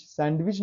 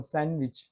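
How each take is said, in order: First: सैंडविच with the d sounded, "sand-wich"; pronounced d. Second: सैंडविच with the d dropped, "san-wich"; silent d. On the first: Teacher showing students the mistake, d sounded in सैंडविच. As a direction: voice the d in the middle of सैंडविच. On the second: Teacher correcting the mistake for students, silent d in सैंडविच. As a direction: go from n straight to w in सैंडविच. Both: Shown as a demonstration. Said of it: "सैंडविच नहीं बोल रहा हूँ".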